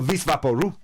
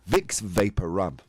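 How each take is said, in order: First: It is run together as one Spanish-sounding word. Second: It is said as three separate English words. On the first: "There's a big difference there" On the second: "How is it in English again?"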